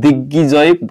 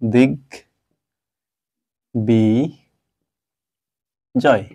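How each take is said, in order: First: The b sound after g is dropped. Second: The b sound after g is clearly pronounced. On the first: The speaker calls it wrong. "আমরা কখনোই দিগ্বিজয় বলবো না" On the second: The speaker calls it right. "গয়ের সাথে ব ফলা থাকলে সেটা অবশ্যই উচ্চারিত হবে"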